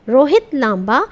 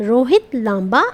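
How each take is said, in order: No difference in how they are said.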